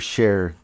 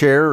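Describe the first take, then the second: First: The word begins with an 'sh' sound. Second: The word begins with a 'ch' sound. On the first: "Do you say chair or share?" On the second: "Do you say chair or share?"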